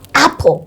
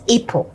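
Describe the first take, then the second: First: The first vowel is a short 'a'. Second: The first vowel is a long 'ay'. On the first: The speaker calls it right. "in school we're told cap, apple" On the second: The speaker calls it wrong. "not April"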